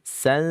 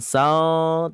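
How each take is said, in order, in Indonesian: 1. Suku kata ini berakhir dengan bunyi n. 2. Suku kata ini berakhir dengan bunyi l. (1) "tapi san" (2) "bukan sal"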